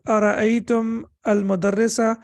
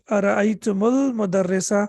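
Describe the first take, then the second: First: The final m stays silent before al. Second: A 'u' vowel links the m to al.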